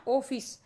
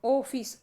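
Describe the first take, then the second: First: ऑफिस, clear two syllables o-pis; pronounced ofis. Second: ऑफिस said as opis, slightly louder; ऑफिस, rounded o, falling; pronounced ofis. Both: Shown as a demonstration. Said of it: "जैसे भाई देखिएगा".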